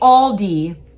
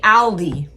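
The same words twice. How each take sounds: First: The first syllable sounds like the word 'all'. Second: The first syllable does not sound like 'all'. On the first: "we say Aldi. Like the word all" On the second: "they say Aldi"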